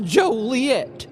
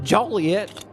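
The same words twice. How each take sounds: First: It is said the way locals say it. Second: It is said the way outsiders say it. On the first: This is how the town says its own name. The speaker calls it right. "The town's pronounced Joliet" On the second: This marks the speaker as an outsider. The speaker calls it wrong. "not Joliet"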